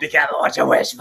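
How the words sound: It is said in a rough, demonic voice.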